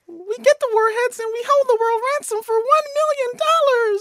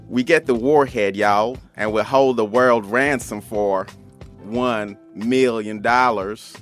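First: It is said in a high Minnie Mouse voice. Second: It is said in a cowboy voice.

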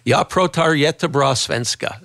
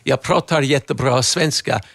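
First: The R is a plain American R. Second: The R is rolled farther back in the mouth. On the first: The speaker calls it wrong. "Most Americans don't even bother trying. They'll just go" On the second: The speaker calls it right. "My R is a little farther back"

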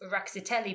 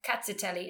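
First: The word begins with an R sound. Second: The word begins without any R sound. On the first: "The name that we both agree" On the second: "just ignoring the R"

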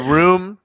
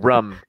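First: The word is said with a general vowel. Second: The word is said with a Boston vowel. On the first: "you did not say room" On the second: "You said rum"

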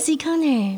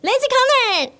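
First: It is said in a gentle, soft tone. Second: It is said in a casual, everyday tone.

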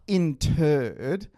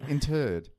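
First: The word is said slowly in separate parts. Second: The word is said quickly and compressed together. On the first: The speaker calls it wrong. "It's not interred" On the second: The speaker calls it right. "you sort of have to compress it and say it quickly"

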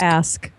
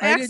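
First: The word ends in a clear sk sound. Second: The word ends in a ks sound. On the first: The speaker calls it right. "You have to really enunciate it" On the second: The speaker calls it wrong. "Don't ax me"

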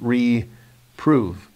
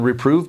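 First: The word is said slowly, split into two parts. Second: The word is said smoothly at normal speed. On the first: To prove or test again. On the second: To chasten or chastise someone.

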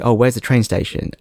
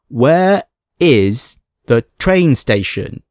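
First: It is said at a normal pace and volume. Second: It is said louder and more slowly.

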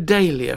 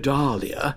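First: The first syllable does not sound like Dahl. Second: The first syllable sounds like Dahl. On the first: "some names that we all pronounce wrongly" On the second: "Dahl, as in Roald. But if you called it a dahlia, folk would think you stuck up"

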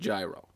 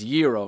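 First: The word begins with a hard G sound. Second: The word begins with a Y sound. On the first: The speaker calls it wrong. "not gyro" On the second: The speaker calls it right. "You don't really pronounce the G in gyro"

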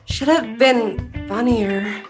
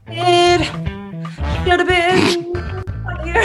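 First: It is said like a Lifetime movie line. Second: It is said in musical theater style.

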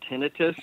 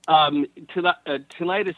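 First: The middle syllable sounds like 'nih'. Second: The middle syllable sounds like 'night'. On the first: This is how doctors say it. "doctors pronounce it tinnitus" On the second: It sounds like 'tonight it's us'. "Tinnitus is also an acceptable pronunciation, ... because tonight it's us every night"

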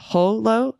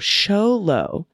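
First: The word begins with a throaty H sound. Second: The word begins with an SH sound. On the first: The speaker calls it wrong. "the X in Spanish is generally pronounced somewhat like a guttural H" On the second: The speaker calls it right. "X is often pronounced more like the English SH"

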